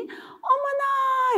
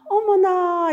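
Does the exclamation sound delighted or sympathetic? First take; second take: delighted; sympathetic. First: It sounds delighted and happily surprised. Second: It sounds sympathetic and dismayed. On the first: The listener is glad about the good news. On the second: The listener feels sorry about the bad news.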